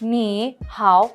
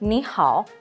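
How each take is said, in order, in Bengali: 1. দুটো শব্দাংশই তৃতীয় টোনে বলা হয়। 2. প্রথম শব্দাংশটি দ্বিতীয় টোনে বলা হয়। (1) "নি হাও এভাবে বলছি না, কারণ এটা স্ট্রেসফুল" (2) "থার্ড টোন বলছি না, আমি বলছি সেকেন্ড টোন"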